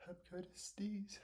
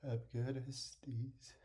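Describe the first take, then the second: First: Soft breathy whisper. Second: Said in the usual way. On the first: Real, not acted. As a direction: whisper it under your breath. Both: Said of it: "said twice, the second time whispered".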